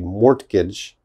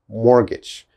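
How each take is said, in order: First: The T sound is pronounced. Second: The T sound is silent. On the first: The speaker calls it wrong. "That is definitely wrong" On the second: The speaker calls it right. "this T is not important"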